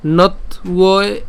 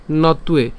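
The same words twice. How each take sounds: First: "নথ উয়ে" slow, as not, u-e; higher "নথ উয়ে" with a clear gap after not; split pronunciation. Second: "নথ উয়ে" run together as no-ttu-e; joined pronunciation. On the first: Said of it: "আর আলাদা করবো". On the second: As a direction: blend "নথ উয়ে" into one word. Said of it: "আর একসাথে বললে". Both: Shown as a demonstration.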